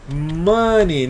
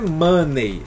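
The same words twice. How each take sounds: First: The word ends with a short 'ee' sound. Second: The word ends with an 'ay' sound, as spelled. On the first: The speaker calls it right. "olha só como é a pronúncia" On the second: The speaker calls it wrong. "Não é money. Você não vai ler do jeito que tá escrito"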